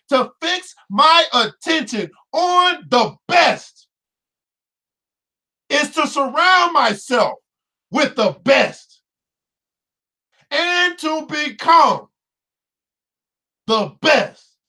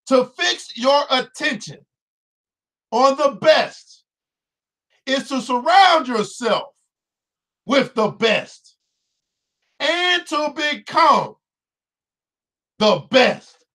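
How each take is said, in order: First: It is said with force and enthusiasm. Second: It is read out with ordinary energy.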